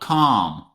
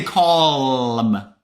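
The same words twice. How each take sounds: First: The L sound is silent in the word. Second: The L sound is pronounced in the word. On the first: The speaker calls it right. "There is a silent letter in this word" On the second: The speaker calls it wrong. "Don't say calm"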